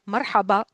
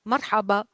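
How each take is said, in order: Both takes have the same delivery.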